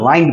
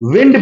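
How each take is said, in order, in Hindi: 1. स्वर लंबा है, 'kind' जैसा। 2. स्वर छोटा है, 'pinned' जैसा। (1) "वाइंड का मतलब होता है घुमाना" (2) "विंड का मतलब होता है हवा"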